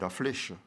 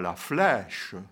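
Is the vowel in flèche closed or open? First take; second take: closed; open. First: The vowel in flèche is closed. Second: The vowel in flèche is open. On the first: This is how people from here say it. "On enferme d'autres que d'autres ouvrent" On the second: This is how people from elsewhere say it. "ce n'est pas"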